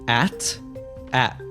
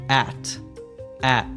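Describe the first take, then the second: Both takes have the same delivery.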